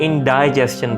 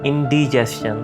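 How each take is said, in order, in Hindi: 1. दूसरे अक्षर में लंबा 'eye' स्वर है। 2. दूसरे अक्षर में छोटा 'ih' स्वर है। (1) "इसको कुछ लोग इंडाइजेशन बोलते हैं, लेकिन डाई नहीं है" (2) "डी है"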